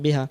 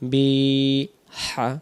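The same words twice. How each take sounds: First: The final vowel is cut short. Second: The final vowel is drawn out long. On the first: The speaker calls it wrong. "যদি তাড়াতাড়ি বলি" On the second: The speaker calls it right. "একালিপ টেনে ধরতে হবে"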